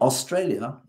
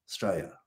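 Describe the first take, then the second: First: All syllables are said in full. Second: It is clipped to two syllables, like Straya. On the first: The speaker calls it wrong. "Not Australia" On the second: The speaker calls it right. "it's Australia"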